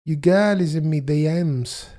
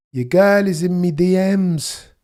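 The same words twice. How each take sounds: First: Lightly voiced Jamaican accent; bad Jamaican accent. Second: Lightly voiced Jamaican accent, high and loud; bad Jamaican accent. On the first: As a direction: try the Jamaican line again. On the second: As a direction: try a Jamaican accent and miss. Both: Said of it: "I can't even do the accent".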